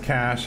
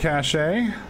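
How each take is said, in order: First: The word has one syllable, like 'cash'. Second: The word has two syllables, ending in 'ay'. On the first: The speaker calls it right. "Sorry, it's Cash" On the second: The speaker calls it wrong. "I have always mispronounced Cash as Cachet"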